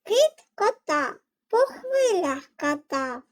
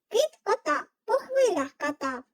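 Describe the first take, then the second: First: It is said at a normal, slower pace. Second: It is said at the quickest pace.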